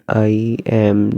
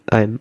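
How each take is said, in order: First: It is said as two separate words. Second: It is said as one joined word. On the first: "This two word" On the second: "Then you pronounce like exact one word"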